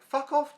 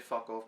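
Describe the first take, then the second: First: High, loud angry snap; retold flare of temper; mad. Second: Said in the usual way. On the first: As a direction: snap it out, pitched way up. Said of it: "mad and I was like".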